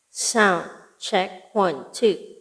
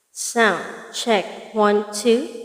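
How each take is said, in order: No difference in how they are said.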